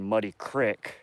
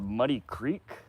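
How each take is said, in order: First: Creek is said with a short i vowel. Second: Creek is said with a long ee vowel. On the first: "We don't say creek in Montana, we say crick" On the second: "this is called Muddy Creek"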